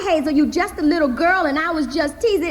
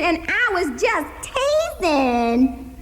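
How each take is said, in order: First: Uncle's original. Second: Slow, high, mocking repeat of his line; mocking echo. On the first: Acted. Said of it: "just like he said it". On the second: Hazel throwing her uncle's words back at him, slow mocking echo. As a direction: mimic him so he hears it. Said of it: "I say back just like he said it".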